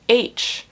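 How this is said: The letter is said the American way. "Americans pronounce as H"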